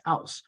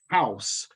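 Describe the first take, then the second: First: The word begins without any H sound. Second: The word begins with an audible H sound. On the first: "dropping it and producing something like house" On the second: "producing the initial H"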